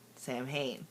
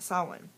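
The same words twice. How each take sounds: First: The word is sounded out as it is spelled. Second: The word is said differently from its spelling. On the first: The speaker calls it wrong. "I said it like everybody else says it when you first look at it" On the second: The speaker calls it right. "But it's actually pronounced"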